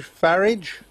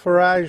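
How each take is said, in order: First: Farage said "FARR-idge"; English equivalent. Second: Farage said "fa-RAHZH"; French-style pronunciation. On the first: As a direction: say Farage to rhyme with marriage. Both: Shown as a demonstration. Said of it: "is the English equivalent of".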